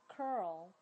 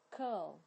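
First: The vowel is said with a curled tongue. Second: The vowel is said without curling the tongue. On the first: "我要教的是这个美式的卷舌的这个r" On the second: "如果是英式发音的话呢，它都不会卷舌"

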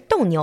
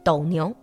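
First: The first syllable has a sharp falling tone. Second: The first syllable has a low dipping tone. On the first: It means bullfighting. The speaker calls it wrong. "不是斗牛" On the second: It names the mythical creature between two constellations. The speaker calls it right. "而是斗牛"

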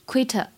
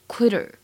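First: The middle t is a crisp, clear t. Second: The middle t is flapped, like a soft d. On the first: "如果最后这个单词它读英式，会读成quitter" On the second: "如果读美音的话呢，要注意一下这里的double t 发的这个t 会有一点点发的的感觉"

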